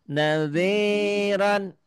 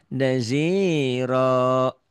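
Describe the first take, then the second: First: The word ends with an n sound. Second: The word ends with a long vowel. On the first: The reading continues without stopping. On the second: The reader stops on this word.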